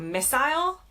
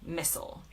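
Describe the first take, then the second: First: It is said with a British accent. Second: It is said with an American accent.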